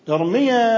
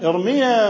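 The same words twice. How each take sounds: The two takes are said the same way.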